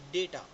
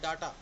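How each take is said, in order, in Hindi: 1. पहला स्वर 'ay' जैसा बोला जाता है। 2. पहला स्वर 'ah' जैसा बोला जाता है। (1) "इसका प्रॉपर प्रोनाउंसिएशन है डेटा" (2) "इसको हम बोलते हैं डाटा"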